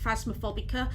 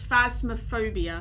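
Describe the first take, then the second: First: The word ends with an extra '-ca' syllable. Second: The word ends with the syllables '-bia'. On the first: The speaker calls it wrong. "I always call it like Phasmophobica" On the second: The speaker calls it right. "but it's Phasmophobia"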